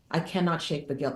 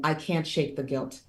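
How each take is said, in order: First: "cannot" spelled out in full and leaned on; stress on cannot. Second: Said in the usual way. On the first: Retold or imitated. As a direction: hit "cannot" hard, both syllables, pitch falling after.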